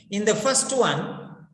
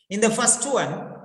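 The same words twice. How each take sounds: The two takes are said the same way.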